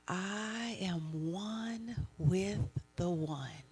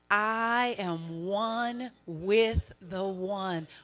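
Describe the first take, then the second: First: It is said in a lower, softer voice. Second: It is said in a normal, higher voice.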